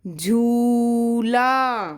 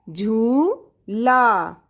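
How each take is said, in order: First: झूला with a clear aspirated झ and very slow; careful pronunciation. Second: Very slow drawn-out झूला; slow dictation. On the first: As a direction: say झूला slowly so झ is clearly झ, not ज. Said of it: "थोड़ा pronunciation देखो, सुनो ध्यान से". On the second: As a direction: drag out झूला for the class. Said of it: "टू time speak भी करना है". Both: Shown as a demonstration.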